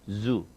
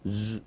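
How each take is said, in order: First: The word begins with a buzzing z sound. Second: The word begins with a buzzing z sound.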